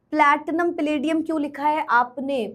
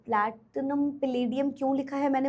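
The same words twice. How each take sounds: First: Said in the usual way. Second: Softer, settling into the explanation; drops the voice to answer herself; quieter answer. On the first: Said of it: "student question quoted". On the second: Real, not acted. Teacher answering the class question more softly. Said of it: "answering the quoted question".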